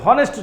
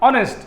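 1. শব্দটি 'h' ধ্বনি দিয়ে শুরু হয়। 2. শব্দটি একটি স্বরধ্বনি দিয়ে শুরু হয়। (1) "হনেস্ট উচ্চারণ হয় না" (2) "এটা অ উচ্চারণ"

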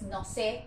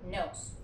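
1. Suena como la frase española no sé. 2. Suena como la palabra inglesa nose. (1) "no es no sé" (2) "es nose"

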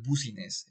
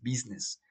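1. La palabra se pronuncia como se escribe. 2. La palabra no se pronuncia como se escribe. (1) "no es business" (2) "es business, aunque se escribe Business"

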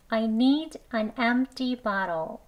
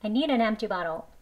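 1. 이 문장은 더 느리게 말했어요. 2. 이 문장은 더 빠르게 말했어요.

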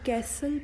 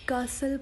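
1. यह अमेरिकी लहजे में बोला जाता है। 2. यह ब्रिटिश लहजे में बोला जाता है। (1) "कैसल बेसिकली अमेरिकन इंग्लिश का वर्ड है" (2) "ब्रिटिश एक्सेंट को ज़्यादातर फॉलो करते हैं"

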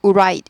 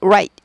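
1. r은 입술을 빠르게 둥글리면서 시작해요. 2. r은 입술을 빠르게 둥글리면서 시작해요.

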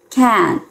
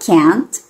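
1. O T final é retido, sem liberação. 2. O T final é liberado audivelmente. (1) "e o T vai ficar agarradinho" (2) "Você pode deixar o som do T e falar can't"

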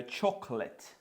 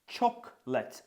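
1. Це слово вимовляється з двома складами. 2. Це слово вимовляється з двома складами.

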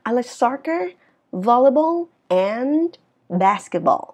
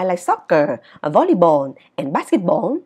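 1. Ngữ điệu lên ở các mục đầu, xuống ở cuối. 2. Các mục trước 'and' không có ngữ điệu lên. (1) "mà nó sẽ là" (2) "Chứ không đọc là"

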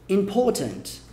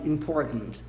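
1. O R é omitido; o T é pronunciado. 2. O T é engolido na parte de trás da garganta. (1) "caso a sua pronúncia seja mais britânica" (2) "Uma pronúncia americana bem Nova York... engole"

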